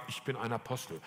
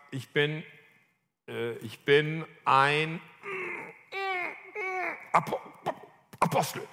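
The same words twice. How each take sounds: First: Low, soft, reluctant admission; understated, hesitant confession; reluctant practice. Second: Halting, stuck before the last word; acted-out struggle to get the words out; struggling to say it. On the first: Retold or imitated. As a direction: say it timidly, as if it is hard to say. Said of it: "Das ging so schwer". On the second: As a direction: stammer and strain towards APOSTEL, with long gaps. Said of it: "Das war richtig schwer".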